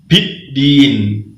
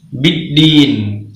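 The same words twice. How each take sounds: First: The first consonant is released with a breath puff. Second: The first consonant is released without a breath puff. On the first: The speaker calls it wrong. "bukan biddin" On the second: The speaker calls it right. "Seperti itu ya yang benar"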